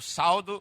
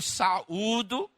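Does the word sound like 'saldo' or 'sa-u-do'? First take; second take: saldo; sa-u-do. First: The word sounds like 'saldo', with two syllables. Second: The word is said 'sa-u-do', with three syllables. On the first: The speaker calls it wrong. "eu já vi, irmãos, diz assim" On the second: The speaker calls it right. "a pronúncia certa é essa"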